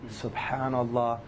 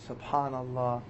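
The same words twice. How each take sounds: Both takes have the same delivery.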